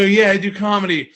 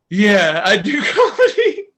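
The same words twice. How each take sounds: First: Said in the usual way. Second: High, loud retold answer through laughter; breaking into laughter. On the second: Comedian answering a relative at the wake, laughing. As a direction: crack up halfway through the answer.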